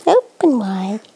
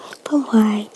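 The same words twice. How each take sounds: First: Said in the usual way. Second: Whisper. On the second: Real, not acted. Mother coaxing baby to open her mouth, whispering.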